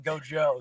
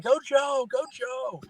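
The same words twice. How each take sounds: First: Said in the usual way. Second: Mock child's scream. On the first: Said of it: "my mother-in-law was yelling". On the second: Dad imitating his daughter cheering at the TV, mock scream. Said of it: "Nora was screaming".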